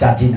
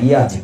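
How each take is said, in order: First: The word begins with a j sound. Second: The word begins with a y sound. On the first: The speaker calls it wrong. "মদ জাজি না" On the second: The speaker calls it right. "অন্তস্থ যত ইয়াজি বলছি"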